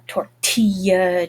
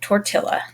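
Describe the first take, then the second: First: The double L sounds like a Y. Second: The double L sounds like an L. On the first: "You're used to that two L sound" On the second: "you're like Napoleon Dynamite and you pronounce it tortilla"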